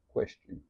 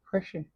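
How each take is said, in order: First: It is said in the speaker's normal voice. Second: It is said in a mocking imitated voice.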